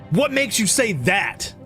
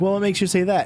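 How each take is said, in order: First: It is asked in a harsh, aggressive tone. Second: It is asked in a calm, curious tone.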